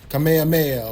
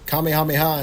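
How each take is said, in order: First: It is said with an Americanized pronunciation. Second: It is said with a Japanese-style pronunciation. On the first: This is the older localized way of saying the term. "instead of" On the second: This is the original term used in the newer version. "we got more of the Japanese terms in there"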